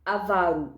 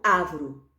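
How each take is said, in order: First: "Avaro" stressed on VA; a-VA-ro, middle syllable leads in "Avaro"; correct stress. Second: "avro" as ÁVARO, first syllable stressed; front-stressed "avro", middle vowel nearly swallowed; wrong stress. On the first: Teacher giving the right form, middle-syllable stress on "Avaro". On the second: Teacher warning of the error, first-syllable stress on "avro". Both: Shown as a demonstration. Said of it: "não avro".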